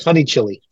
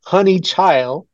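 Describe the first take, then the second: First: Put-on "Child" misread as "Chili"; misread name. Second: Put-on "Honey Child" drawn out slowly; deliberate pronunciation. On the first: New Mexican reader showing his first misreading, "Honey Chili" like the pepper. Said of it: "The first thing I read was". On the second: Reader showing how the name looks on the page, "Honey Child" said slowly. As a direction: spell out "Honey Child" by ear, stretching "Child" slowly. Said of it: "So when you read it, it's". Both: Shown as a demonstration.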